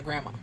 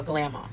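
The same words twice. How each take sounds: First: Said in the usual way. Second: "grandma" said as "glamma" with an L; playful "grandma" reworked as "glamma". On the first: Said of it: "or a grandma". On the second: Shown as a demonstration. Recapping the grandma-to-be, says "grandma" as "glamma". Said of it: "being a grandma".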